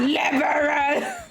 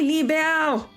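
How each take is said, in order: First: The word is said like English 'liberal'. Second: The word is said as 'libelle', without an added sound. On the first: The speaker calls it wrong. "it's not liberal" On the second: The speaker calls it right. "It's only libelle"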